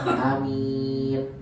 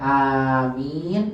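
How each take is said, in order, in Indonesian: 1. Vokal pertama pendek, yang kedua panjang. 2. Kedua vokal dibaca panjang. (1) "amin a-nya pendek" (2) "amin panjang dua-duanya"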